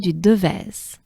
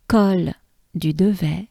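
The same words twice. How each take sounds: First: "du Devèze" with its final consonant sounded; corrected French pronunciation. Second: "du Devet" ending on an open vowel; mistaken French pronunciation. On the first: Teacher correcting the climb's name, final z sounded. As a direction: end "Devèze" on a clear z. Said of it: "Actually, it's called". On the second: Teacher misnaming a climb on the stage, final consonant dropped. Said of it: "I am going to correct myself". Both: Shown as a demonstration.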